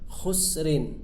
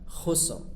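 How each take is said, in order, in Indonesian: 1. Kata ini berakhir dengan vokal dan akhiran nasal. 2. Kata ini berhenti pendek pada r akhir yang tebal.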